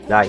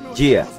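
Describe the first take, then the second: First: The name is said with the vowels a then i. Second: The name is said with the vowels i then a. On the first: "Eu falo Dai" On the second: "Ela falou que se pronuncia tipo dia"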